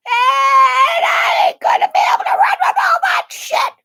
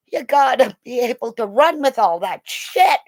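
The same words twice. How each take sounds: First: Very high, loud wail; exasperated shout. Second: Said in the usual way. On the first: Retold or imitated. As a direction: yell it in comic protest. Shouted repeat about herself in gear.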